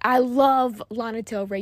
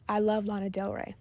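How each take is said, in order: First: The voice is loud and forceful. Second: The voice is at a moderate level. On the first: "That sounds aggressive" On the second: "That was medium"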